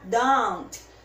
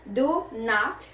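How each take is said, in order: First: It is said as one contracted word. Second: It is said as two separate words. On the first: "juntar o do com not e vai ficar don't" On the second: "eu posso falar separadinho"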